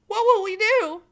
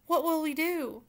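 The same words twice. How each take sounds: First: High, loud wail; loud, high despairing wail. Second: Understated despairing question; mild lament. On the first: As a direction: cry it out in despair. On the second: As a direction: ask it helplessly, first time. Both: Acted. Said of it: "wailed Cook".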